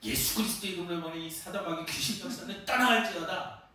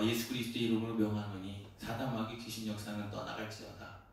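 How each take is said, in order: First: It is said in a loud, forceful voice. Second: It is said in a calm, normal voice.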